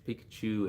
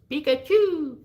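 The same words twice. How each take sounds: First: Said in the usual way. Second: Very high, squeaky creature cry; Pikachu. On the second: Acted. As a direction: chirp the name out loudly like a little cartoon monster. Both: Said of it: "Pikachu and Eevee don't have a voice".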